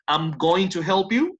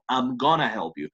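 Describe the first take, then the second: First: Going to is said as two full words. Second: Going to is blended into gonna.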